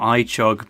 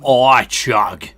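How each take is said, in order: First: The stress is on the second syllable. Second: The stress is on the first syllable. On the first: The speaker calls it wrong. "I should be saying that differently" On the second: The speaker calls it right. "You got to put the emphasis on the I"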